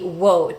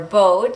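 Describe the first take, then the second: First: The word begins with a W sound. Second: The word begins with a B sound. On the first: A Russian speaker might say it this way. "maybe wote for speakers of other languages, especially Russian" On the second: A Spanish speaker might say it this way. "might sound like vote or boat for Spanish speakers"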